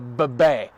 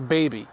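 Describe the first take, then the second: First: The word is said as 'bebe'. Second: The word is said as ordinary 'baby'.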